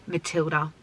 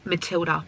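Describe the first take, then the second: No difference in how they are said.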